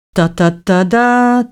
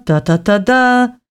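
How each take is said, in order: First: Slow, hummed trumpet fanfare; sung, stately la-la fanfare. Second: Sung, slow fanfare, ending higher; sung, echo the trumpet call once more, rising; sung, stately royal horn call. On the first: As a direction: sing it like a royal herald's horn. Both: A narrator's reading. Herald's fanfare before announcement.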